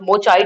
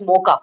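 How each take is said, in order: First: The middle consonant is a ch sound. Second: The middle consonant is a k sound. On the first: The speaker calls it wrong. "it's not मोचा" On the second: The speaker calls it right. "क बोला जाता है इसको"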